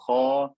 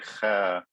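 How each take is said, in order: First: The syllable sounds heavy, with a full, deep vowel. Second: The syllable sounds light, with a thin, bright vowel. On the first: The speaker calls it right. "Kha is one of the seven fat letters, so I say kha" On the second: The speaker calls it wrong. "I don't say kha"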